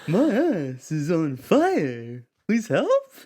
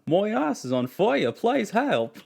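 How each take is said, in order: First: It is said in an imitation of a singer's voice. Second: It is said in an Australian accent. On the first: "You want me to do [name]?" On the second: "the best Australian accent I've ever heard"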